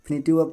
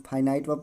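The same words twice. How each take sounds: First: फिनिटिव with short i vowels, fi-ni-tiv; common misreading. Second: फाइनाइट with long "eye" vowels, fye-nite; correct pronunciation. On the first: Teacher quoting how many people misread it, common misreading. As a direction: read फिनिटिव verb the mistaken way, as "finitive". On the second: Teacher showing students how some read it, correct pronunciation. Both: Shown as a demonstration. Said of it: "शुद्ध पढ़ा जाएगा फाइनाइट verb".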